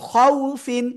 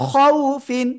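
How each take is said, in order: The two takes are said the same way.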